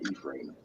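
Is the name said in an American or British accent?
British. It is said in a British accent. "In the U K, so I'm from Manchester"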